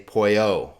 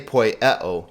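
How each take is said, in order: First: The e sound drops and the vowels merge. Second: The vowels are kept apart, with an e sound. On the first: The speaker calls it right. "you just say poio" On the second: The speaker calls it wrong. "you don't say poieo"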